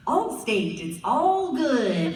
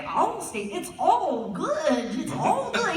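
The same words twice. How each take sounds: First: Lightly mocked white announcer, stretched vowels; trying to sound white. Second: Higher, swooping, over-stretched white-guy read; straining to sound white. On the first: Actor auditioning for an Allstate commercial, lightly faking a white voice. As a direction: draw out "all good" in a hinted white-guy read. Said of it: "very white for this". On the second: Retold or imitated. Actor retrying the Allstate line, straining to sound very white. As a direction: try too hard, dragging out "all good". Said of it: "really, like, trying to do it".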